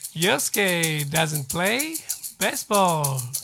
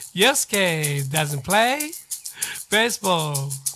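Both takes have the same delivery.

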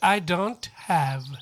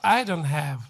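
First: The phrase is spoken slowly and carefully. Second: The phrase is spoken quickly and run together. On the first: "ゆっくり言うと" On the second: "早く言うと"

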